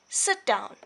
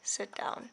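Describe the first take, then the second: First: It is said with strong, exclamatory feeling. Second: It is said flatly, like a plain statement.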